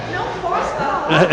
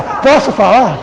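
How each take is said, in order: First: Much higher, softer sulky "Não posso falar". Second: Said in the usual way. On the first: Shown as a demonstration. Speaker showing how tone of voice starts conflicts, high sulky pout. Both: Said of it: "noventa por cento dos conflitos está no tom de voz".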